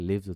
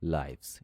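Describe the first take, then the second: First: The vowel sounds like 'ih'. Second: The vowel sounds like 'eye'. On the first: It sounds like the verb meaning to reside. The speaker calls it wrong. "এটাকে লিভস উচ্চারণ করা যাবে না" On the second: It means lives, the plural of life. The speaker calls it right. "জীবনগুলো English হচ্ছে লাইভস"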